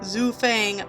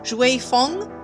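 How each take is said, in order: First: The name sounds like 'Zhu Fang'. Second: The name sounds like 'Shui Feng'. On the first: The speaker calls it wrong. "I've been pronouncing quote, quote unquote Zhu Fang wrong" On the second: The speaker calls it right. "it's actually pronounced Shui Feng"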